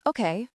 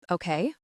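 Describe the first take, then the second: First: Said in the usual way. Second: Okay rising, caught off guard; shocked question. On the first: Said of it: "Then she nods". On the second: Acted. Bodyguard surprised she agrees so easily, questioning rise. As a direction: ask okay in disbelief.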